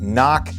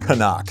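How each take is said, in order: First: It is said as 'knock'. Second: It is said as 'ca-nuck'. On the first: The speaker calls it wrong. "It is not Knock" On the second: The speaker calls it right. "It is Canuck"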